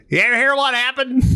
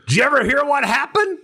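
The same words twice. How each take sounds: First: High, quick, slurred-together character voice; Carl. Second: High-pitched storyteller voice; Carl. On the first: Correcting himself on how his friend talks, high and quick. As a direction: imitate an Oklahoman buddy, running words together. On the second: Asking his visitor about the story, high and eager. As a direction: imitate an eager old buddy, voice up high. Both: Retold or imitated. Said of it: "No, Carl talks".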